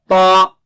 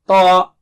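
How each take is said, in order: First: The t is followed directly by the vowel. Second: The same.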